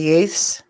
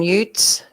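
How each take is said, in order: First: The word ends with a th sound. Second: The word ends with a plain t sound. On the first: "instead of youths" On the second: "is this the pronunciation Utes"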